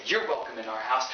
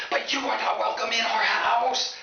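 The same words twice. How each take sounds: First: Said in the usual way. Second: High, slow, stretched-out yell; hammed-up high-pitched screaming; screaming parents. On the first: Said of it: "look at my buddy Tony and say". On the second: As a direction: shriek the rejection like an outraged parent. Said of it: "instantly start screaming".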